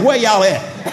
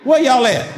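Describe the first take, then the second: First: Laughing call to the congregation; calling out the church. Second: Calling out the church. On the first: Pastor teasing the congregation, laughing call. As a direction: toss it out with a laugh. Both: Shown as a demonstration. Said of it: "I just gotta say it like that".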